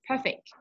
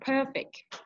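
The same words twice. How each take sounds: First: The word is said with a sharp stress. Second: The word is drawn out and long. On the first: It means to make something flawless. "Tapi kalau yang ini dia pakai pakai stress" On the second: It describes something as flawless. "Kalau adjektifnya dia panjang"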